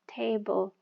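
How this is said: The pitch falls from high to low. The speaker calls it right. "dari atas ke bawah ... Turun"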